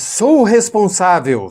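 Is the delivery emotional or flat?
emotional. It is said warmly, full of feeling. The speaker calls it right.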